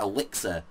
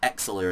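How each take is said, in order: First: The L comes right after the first vowel. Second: The X comes first and the L comes later. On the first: The speaker calls it right. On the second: The speaker calls it wrong.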